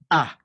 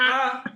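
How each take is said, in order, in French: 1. La syllabe est prononcée sur une note basse. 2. La syllabe est prononcée sur une note haute. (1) "Alors que le premier, c'était A" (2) "Le deuxième ton, il avait l'accent aigu. Lui, il va vraiment monter"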